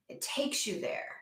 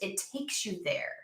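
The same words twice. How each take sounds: First: Whispered "It takes you there"; a soft repeated whisper. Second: Said in the usual way. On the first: Shown as a demonstration. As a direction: breathe it out in a whisper. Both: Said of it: "repeats line as whisper".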